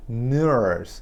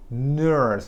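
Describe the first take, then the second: No difference in how they are said.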